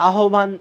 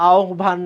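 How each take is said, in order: The two takes are said the same way.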